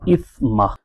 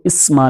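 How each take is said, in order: First: The middle consonant is a soft th sound. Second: The middle consonant is a whistling s sound. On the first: The speaker calls it right. "बगैर सीटी के अदा करना है" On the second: The speaker calls it wrong. "अब इसको इस्मा नहीं पढ़ना"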